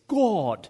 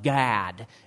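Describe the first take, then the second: First: The word is said in a British accent. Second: The word is said in a Michigan accent. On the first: The speaker calls it right. "It's God" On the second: The speaker calls it wrong. "not Gad, as you children say in Michigan"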